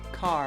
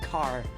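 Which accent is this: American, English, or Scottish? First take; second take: American; Scottish. First: It is said in an American accent. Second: It is said in a Scottish accent. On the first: "So you would say car" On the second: "whereas I'd say car"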